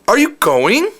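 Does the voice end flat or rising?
rising. The voice rises like a question at the end. "it's like an intonation. It's almost like saying"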